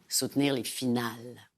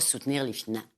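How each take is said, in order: First: The final syllables are held firmly. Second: The final syllables fade away weakly. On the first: The speaker calls it right. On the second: The speaker calls it wrong.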